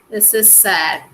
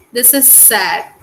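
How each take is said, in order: First: "is" stressed, said lower and calmer. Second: "is" lightly stressed. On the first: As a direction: say "This is sad" lower, leaning on "is". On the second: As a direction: lean on "is" in "This is sad". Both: Shown as a demonstration.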